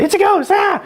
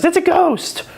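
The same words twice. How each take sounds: First: Mock terrified shriek. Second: High frightened cry of a ghost. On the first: Sunday-school viewers seeing something shadowy, hammed-up terrified shriek. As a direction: shriek it like a fake scare. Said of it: "we don't say". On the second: Retold or imitated. Disciples spotting a figure on the lake, high frightened cry. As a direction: cry it out as scared sailors. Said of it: "it says".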